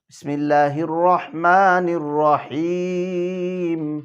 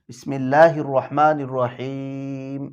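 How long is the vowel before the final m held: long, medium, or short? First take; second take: medium; short. First: The vowel before the final m is held moderately. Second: The vowel before the final m is held briefly. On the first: "তাওয়াসুত, দুই আলিফ" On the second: "কসর, এক আলিফ করে থামবো"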